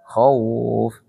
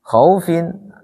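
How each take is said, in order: First: "Khauf" stopped on the f, with nothing after; paused form with sukun. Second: "Khaufin" ending clearly on -in; full form with tanwin. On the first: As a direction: end "Khauf" sharply on the f. ("Khauf" dibaca waqaf, huruf akhir mati) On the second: ("Khaufin" dibaca lengkap dengan tanwin) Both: Shown as a demonstration.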